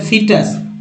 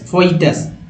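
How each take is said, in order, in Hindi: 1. पहला स्वर 'ee' जैसा बोला जाता है। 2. पहला स्वर 'oy' जैसा बोला जाता है। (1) "फोई नहीं पढ़ना है, फी पढ़ना है" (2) "जो नहीं जानते हैं तो कहेंगे फोइटस"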